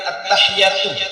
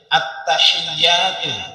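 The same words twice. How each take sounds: First: The t is single and the ya is short. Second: The t is doubled and the ya is long. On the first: The speaker calls it wrong. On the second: The speaker calls it right. "Yang tepat itu at-tahiyatu. At-nya bertasdid, iya-nya panjang"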